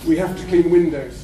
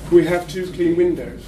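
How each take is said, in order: First: The word 'to' is unstressed. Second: The word 'to' is stressed. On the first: Cleaning the windows is an obligation. "the to is a function word and is consequently not emphasised" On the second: There are two windows that are clean. "the numeral, the number, is a content word"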